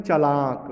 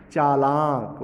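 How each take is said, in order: First: चालाक said "chalaak", first syllable short; short first vowel. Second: चालाक as "chaa-laak", both vowels long; long first vowel. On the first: Teacher showing the Bhojpuri mistake, short first vowel. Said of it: "अशुद्ध रूप में बोल देते हैं". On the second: Teacher correcting the mistake, long first vowel. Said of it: "क्या होना चाहिए". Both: Shown as a demonstration.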